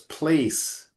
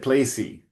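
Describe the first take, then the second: First: The word ends on the s sound, no vowel. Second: The word ends with an added ee vowel sound. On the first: The speaker calls it right. "there's a silent E at the end of the word. So it's place" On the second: The speaker calls it wrong. "So you said placey"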